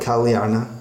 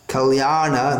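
First: The marked a vowel is said short. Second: The marked a vowel is held long. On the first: The speaker calls it wrong. "not kalyana" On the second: The speaker calls it right. "You see the A with the line over it, then it must be pronounced long"

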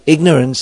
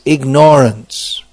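First: The stress is on the first syllable. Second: The stress is on the second syllable. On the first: The word means a lack of knowledge. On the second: The word means ignoring Krishna.

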